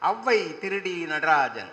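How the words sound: Thiru and T are run together as one word. It sounds like calling the man a thief.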